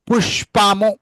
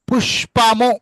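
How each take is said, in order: Both takes have the same delivery.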